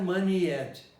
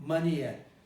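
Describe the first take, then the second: The two takes are said the same way.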